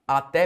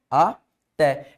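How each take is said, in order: First: Said in the usual way. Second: "Até" split as A, pause, té; "Até" said syllable by syllable with a clear gap; separated syllables. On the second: Shown as a demonstration. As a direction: break "Até" in two for the student. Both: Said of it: "eu separo assim".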